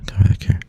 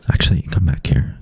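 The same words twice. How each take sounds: First: Whispered call back; hushed, breathy call. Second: Said in the usual way. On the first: Real, not acted.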